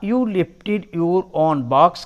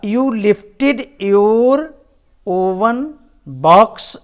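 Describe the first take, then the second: First: The word 'own' is said with one syllable. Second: The word 'own' is said with two syllables. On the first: "इसका सही उच्चारण है ऑन" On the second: "इसे कुछ लोग ओ वन भी कहते हैं"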